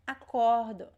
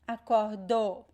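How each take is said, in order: First: The stress is on the second-to-last syllable. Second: The stress is on the last syllable. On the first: The speaker calls it right. "The stressed syllable is the second to last" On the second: The speaker calls it wrong. "It's not the last. It's not acordou"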